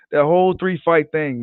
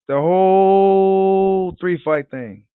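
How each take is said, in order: First: Said in the usual way. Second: Very slow, stretched savoring of "The whole three fight thing"; drawn out slowly. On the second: Shown as a demonstration. Vlogger savoring the Wilder Fury trilogy, slow drawn-out repeat. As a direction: draw each word out like you're savoring it. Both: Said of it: "repeated for emphasis".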